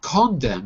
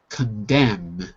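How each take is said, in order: First: The stress is on the first syllable. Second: The stress is on the second syllable. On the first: The speaker calls it wrong. "Not condemn" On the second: The speaker calls it right. "Second syllable"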